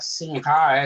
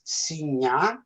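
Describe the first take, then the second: First: The middle is said with an 'ng-g' sound. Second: The middle is said with a 'ny' sound. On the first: "as you call it" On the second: "we pronounce as Sinha"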